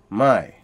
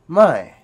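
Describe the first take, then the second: First: The word is said on a low tone. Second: The word is said on a falling tone. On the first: It means new. "a low tone, which is which means new" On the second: It means no or not. "a falling tone, which means no or not"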